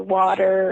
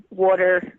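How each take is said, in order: First: Said in the usual way. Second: "water" said with a Jersey-style rounded first vowel; Jersey pronunciation. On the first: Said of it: "water or water and whatever". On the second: Retold or imitated. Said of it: "though you say water".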